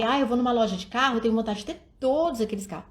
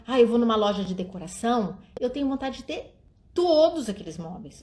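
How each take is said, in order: First: The father's take, said faster; lightly voiced dad wishing for every car; quicker dad voice. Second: Plain. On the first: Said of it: "Ou senão o pai". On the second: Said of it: "ou senão". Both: Shown as a demonstration.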